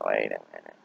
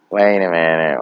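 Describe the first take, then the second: First: "wait a minute" dropped low and soft, trailing away; fading wait a minute. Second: "Wait a minute" said firm and clear, full voice. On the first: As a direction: let "wait a minute" sink and die out. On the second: Repeating wait a minute, fading. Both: Retold or imitated.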